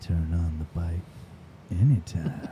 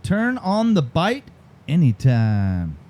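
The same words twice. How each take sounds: First: Very low, soft, drawn-out read; hushed, low slogan with a long pause; even slower. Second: Slow tagline, split by a pause; deliberate, drawn-out slogan; slower read. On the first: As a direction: drop deep and take your time. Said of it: "Can you say it slower?". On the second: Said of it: "Say it a little bit slower". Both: Shown as a demonstration.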